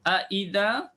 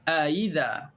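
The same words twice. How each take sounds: First: The second glottal stop is fully pronounced. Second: The second glottal stop is softened and eased.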